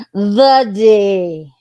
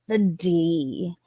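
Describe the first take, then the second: First: Loud, hammed-up exclamation; mock outcry. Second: Said in the usual way. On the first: Real, not acted. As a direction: blurt it out, louder and overdone.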